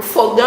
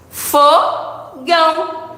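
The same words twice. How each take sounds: First: Said in the usual way. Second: "Fogão" very slow, split into FO, pause, GÃO; syllable by syllable. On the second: Shown as a demonstration. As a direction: hold each syllable of "Fogão" apart. ("Fogão" bem devagar: fo... gão) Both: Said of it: "duas palavras com duas sílabas".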